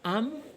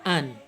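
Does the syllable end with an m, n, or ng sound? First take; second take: m; n. First: The syllable ends with an m sound. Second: The syllable ends with a clear n sound. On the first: The speaker calls it wrong. "enggak dibaca am" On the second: The speaker calls it right. "tapi an"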